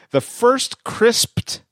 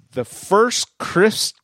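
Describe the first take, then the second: First: "crisped" with a clear P and final T; "crisped" slowly, every consonant spoken; careful crisped. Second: "crisp" said without the final -ed; "The first crisp" with no T at the end; mispronounced crisp. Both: Shown as a demonstration.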